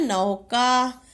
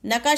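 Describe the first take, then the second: First: नौका slow, with a long औ; नौका stretched as "nau-kaa"; corrected word. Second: न का with a short "a" after न; quick first vowel in न का; misspelt word. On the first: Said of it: "क्या होता है". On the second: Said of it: "शब्द नहीं होता". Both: Shown as a demonstration.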